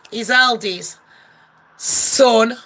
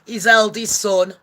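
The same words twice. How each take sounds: First: "his eldest", then a pause and a drawn-out "son"; emphasis on ELDEST SON. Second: Said in the usual way. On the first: Shown as a demonstration. Pointing out the speech's wording, deliberate emphasis on "eldest ... son". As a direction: set "son" apart after a weighty pause. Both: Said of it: "the emphasis".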